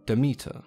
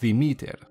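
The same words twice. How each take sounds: First: The name begins with a plain D sound. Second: The name begins with a soft TH sound. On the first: This is the English form of the name. "The English translation is quite simply Demeter" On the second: This is the authentic Greek form of the name. "in Greek is pronounced Demeter, with the emphasis placed on the second E and the me in meter"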